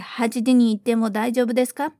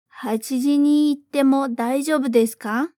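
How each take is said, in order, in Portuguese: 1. A frase é falada rápido. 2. A frase é falada devagar. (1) "Mais rápido agora" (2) "então vamos devagar primeiro"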